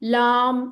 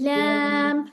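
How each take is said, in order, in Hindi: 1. स्वर चौड़ा और खुला है, जैसे 'aa'। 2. स्वर पतला और आगे की ओर है, जैसे 'ae'। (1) "लाम ऐसे नहीं"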